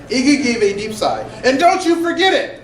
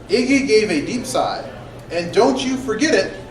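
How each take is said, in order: First: It is read expressively, with lively inflection. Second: It is read flatly, with little inflection. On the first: The speaker calls it right. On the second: The speaker calls it wrong.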